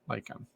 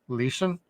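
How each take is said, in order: First: The name is said with a hard 'k' sound. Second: The name is said with a soft German 'ch'. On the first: This is how the show pronounces it. "they pronounce it like Lycan" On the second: This is how the spelling reads in German. "it's more like Leischen"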